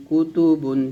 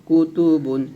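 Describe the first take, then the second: No difference in how they are said.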